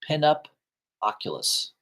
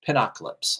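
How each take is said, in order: First: The name ends with an 'oculus' sound. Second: The name ends with an 'ocalypse' sound. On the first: The speaker calls it wrong. "I'm not saying that right" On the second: The speaker calls it right. "I think I'm pronouncing it correctly now"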